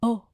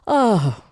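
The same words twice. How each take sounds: First: The oh is said on a sharp gasp. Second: The oh is breathed out as a sigh.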